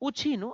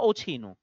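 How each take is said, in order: First: The first vowel is a 'u' sound. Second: The first vowel is an 'o' sound. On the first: "ઉછીનું લેવું" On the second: "કેટલાક લોકો એમ બોલે કે ઓછીનું લેવું"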